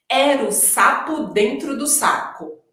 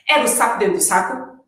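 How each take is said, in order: First: The sentence is said at a slow pace. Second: The sentence is said at a very fast pace. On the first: "tá devagar" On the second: "ainda tá devagar, então a gente vai fazer mais rápido"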